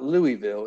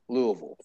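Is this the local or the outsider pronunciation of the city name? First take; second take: outsider; local. First: The name is said the way outsiders say it. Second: The name is said the way locals say it. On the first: The speaker calls it wrong. "it's not Louisville" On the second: The speaker calls it right. "it's Louisville. So – get your pronunciations right"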